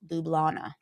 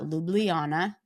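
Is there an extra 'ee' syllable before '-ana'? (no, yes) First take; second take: no; yes. First: No extra 'ee' syllable comes before '-ana'. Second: An extra 'ee' syllable comes before '-ana'. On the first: The speaker calls it right. "It's Ljubljana" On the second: The speaker calls it wrong. "it's not Ljubljana because it looks like there's an I"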